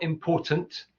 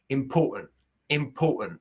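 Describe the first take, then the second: First: "important" with crisp, released Ts, slow; careful RP "important"; clear T. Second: "important" with glottal stops for both Ts; Cockney "important", glottal Ts. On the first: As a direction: sound every T in "important". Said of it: "Not important". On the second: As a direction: swallow the Ts in "important". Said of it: "that glottalization". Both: Shown as a demonstration.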